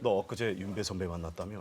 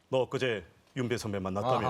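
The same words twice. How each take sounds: First: It is said at normal conversational volume. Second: It is said loudly and slowly, projected outward. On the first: It is meant for someone sitting close by. The speaker calls it right. "이렇게 하면 될 거를" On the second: It is meant to be heard far away. The speaker calls it wrong. "뭐 이렇게 되는 거예요"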